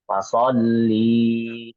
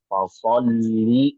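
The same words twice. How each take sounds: First: A vowel is stretched out long. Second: The vowels are kept short without stretching. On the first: The speaker calls it wrong. "bacanya tuh di sini panjang" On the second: The speaker calls it right. "tidak panjang. Jadi tidak ada jeda di sana"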